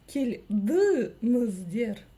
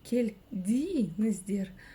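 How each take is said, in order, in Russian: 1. Гласные после 'd' и 'n' заднего ряда. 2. Гласные после 'd' и 'n' переднего ряда. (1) "А теперь пробуем прочитать через букву «ы»" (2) "Пробуем прочитать через букву «и»"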